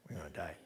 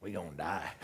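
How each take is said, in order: First: Awed whisper. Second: Hushed mock dread. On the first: Retold or imitated. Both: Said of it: "his response was".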